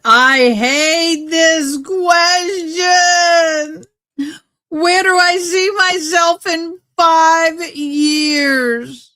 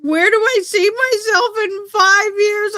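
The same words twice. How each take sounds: First: Long drawn-out, high hammed-up wail; high mock-crying dread, every word stretched. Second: Very high, squeaky mock-crying whine; mock whimpering. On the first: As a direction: moan it slowly like a fake sob. Dreading a question, wailing it. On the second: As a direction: squeal the question as if about to sob. Repeats the question in mock crying.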